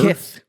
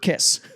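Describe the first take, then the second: First: The s sound is lisped like th. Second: The s sound is a clear hiss.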